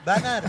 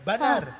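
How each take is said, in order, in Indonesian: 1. Vokal pertama terdengar seperti 'a' terbuka. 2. Vokal pertama terdengar seperti 'a' terbuka.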